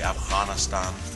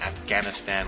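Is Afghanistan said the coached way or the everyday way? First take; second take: coached; everyday. First: It is said with the coached local pronunciation. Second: It is said with the everyday English pronunciation. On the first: "we'll say Afghanistan. That sound" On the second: "instead of saying Afghanistan"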